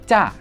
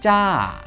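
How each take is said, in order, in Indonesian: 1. Vokalnya diucapkan pendek. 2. Vokalnya diucapkan panjang. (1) "Sekarang kita pendekin nih" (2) "suara panjangnya adalah ca"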